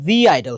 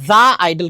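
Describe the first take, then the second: First: The word 'the' is said like 'dee'. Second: The word 'the' is said like 'duh'. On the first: The speaker calls it right. "এখানে হচ্ছে দি idol হয়" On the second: The speaker calls it wrong. "দা idol কিন্তু হয় না"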